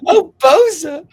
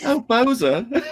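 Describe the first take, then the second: First: High, loud mock Southern belle sigh; imitating the high belle voice. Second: High swooning Southern belle. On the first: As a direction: echo her plea in a high swoon. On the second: Pretend. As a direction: breathe his name high and longing. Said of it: "I like the way you say my name like that".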